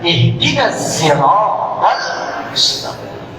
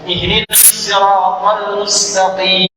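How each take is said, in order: First: The word sirat begins with a z sound. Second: The word sirat begins with an emphatic s sound. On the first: "Maka turunlah riwayat nanti menggunakan zai" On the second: "Shot, hafaz dari Asim"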